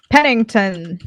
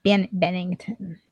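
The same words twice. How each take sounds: First: Pennington said with an initial P; mistaken P sound. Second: Bennington said softly, slowly, with an initial B; corrected B sound. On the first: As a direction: start Pennington on a puffed P, not B. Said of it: "I think it's with a B". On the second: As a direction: restart on Ben, then Bennington with a B. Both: Real, not acted.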